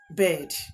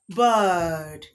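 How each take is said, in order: First: The vowel is not a long 'er' sound. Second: The vowel is a long 'er' sound. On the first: The speaker calls it wrong. "not bird" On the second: The speaker calls it right. "is bird"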